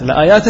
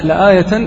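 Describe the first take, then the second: First: لآيات with long second aa and -in ending; correct plural reading. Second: لآية with short ya and -tan ending; incorrect singular reading. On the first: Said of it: "لآيات صحيح". (نطق لآيات بالجمع مع تنوين الكسر) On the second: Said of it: "أما لآية، لآية لا". (نطق لآية بالمفرد خطأً) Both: Shown as a demonstration.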